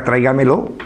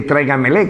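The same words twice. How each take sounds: First: "tráigamelo" said plainly with lo ending; correct form tráigamelo. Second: "tráigamele" said with le ending, as the northern leísmo; the mistaken "tráigamele" quoted to mock it; wrong form tráigamele. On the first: Speaker correcting the northern form, plain lo ending. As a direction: give the right form "tráigamelo". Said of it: "Sería". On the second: Speaker mocking northern grammar, le ending. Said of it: "¿cómo que tráigamele?". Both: Shown as a demonstration.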